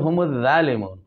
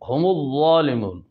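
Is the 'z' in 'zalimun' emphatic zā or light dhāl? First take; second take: light dhāl; emphatic zā. First: The consonant is the light dhāl sound. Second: The consonant is the heavy emphatic zā sound. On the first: "ظا کو ذال پڑھتا ہے" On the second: "یہاں ظا ہے"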